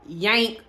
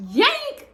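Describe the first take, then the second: First: Said in the usual way. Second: Very high, loud squeaked question; incredulous repeat. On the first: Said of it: "the first thing that came out his mouth was". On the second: Retold or imitated. Woman repeating fiance's odd reaction, incredulous squeak. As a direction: squeak it in mock disbelief.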